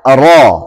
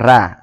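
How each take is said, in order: First: The letter is said thick, with heavy ro. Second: The letter is said thin, with light ra. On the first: This is how it is read in this recitation. "nanti kita baca ro, nah, tebal" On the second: This is how some regional speakers say it. "kalau orang Bugis menyebutkan huruf ro dengan ra"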